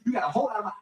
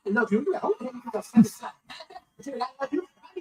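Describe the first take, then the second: First: Said in the usual way. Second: Cracking up mid-line; can't hold it together, laughing; words breaking into real laughter; laughing through it. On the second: Real, not acted.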